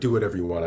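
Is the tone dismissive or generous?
dismissive. It sounds dismissive and uncaring.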